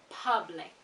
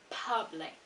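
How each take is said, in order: First: The first vowel is an 'uh' sound. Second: The same.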